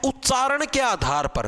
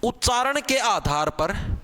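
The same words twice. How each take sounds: First: उच्चारण के आधार पर drawn out slowly, word by word; teacher stressing उच्चारण के आधार पर slowly; slow emphasis. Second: उच्चारण के आधार पर slow with a rising end; teacher repeats उच्चारण के आधार पर slowly, rising; slow emphasis again. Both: Shown as a demonstration. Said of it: "उच्चारण जो हम बोलते हैं".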